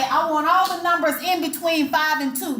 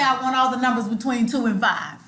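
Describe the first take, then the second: First: Higher, as a doubtful example; pitched up, mildly dubious demo; questionable wrong phrasing. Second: Said in the usual way. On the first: Shown as a demonstration. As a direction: offer it up as the odd-sounding version. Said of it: "do you say it like that". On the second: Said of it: "or do you say".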